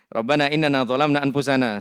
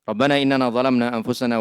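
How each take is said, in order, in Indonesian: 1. Suara berhenti dengan jeda setelah anfusana. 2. Suara terus berlanjut tanpa jeda setelah anfusana. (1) "kalau kayak tadi dipotong sedikit-sedikit" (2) "baca dulu sampai selesai, baru jeda"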